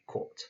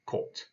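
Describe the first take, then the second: First: Kot said again with an aspirated K, slightly softer; Russian word kot. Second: Kot said with a short aspirated K and short O; Russian word kot. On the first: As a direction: repeat kot crisply. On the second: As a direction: say kot crisply. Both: Shown as a demonstration. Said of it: "you just say".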